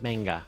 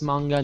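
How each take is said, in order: First: The first vowel sounds like 'ay'. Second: The first vowel sounds like 'ah'. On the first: The speaker calls it wrong. "not manga. If it were manga, it would be M E I" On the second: The speaker calls it right. "it's pronounced manga"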